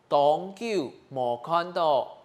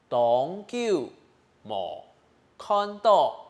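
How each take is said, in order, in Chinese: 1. 这个短语是用正常语速说的。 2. 这个短语是慢速说的。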